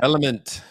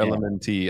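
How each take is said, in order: First: The name is said as one ordinary word. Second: The name is said as separate spelled letters. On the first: "just say element" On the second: "I always just wanna say the letters"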